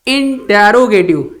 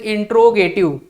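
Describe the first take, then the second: First: The vowel after the first syllable is kept. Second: The vowel after the first syllable is dropped. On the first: The speaker calls it right. "ये इंटेरोगेटिव है।" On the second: The speaker calls it wrong. "Not use इंट्रोगेटिव। बहुत सारे बच्चे इसको इंट्रोगेटिव बोलते हैं।"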